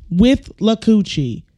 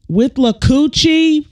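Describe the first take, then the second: First: Said in the usual way. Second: Higher, slow disbelieving question; slow, high incredulous repeat; incredulous echo. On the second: Real, not acted. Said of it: "That sounds like".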